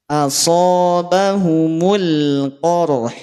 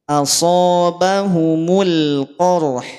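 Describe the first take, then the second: The two takes are said the same way.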